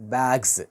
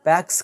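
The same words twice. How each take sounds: First: The final sound is a buzzing z. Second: The final sound is a hissing s. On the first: The speaker calls it right. "జెడ్ వస్తాయి" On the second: The speaker calls it wrong. "బ్యాగ్స్ కాదు"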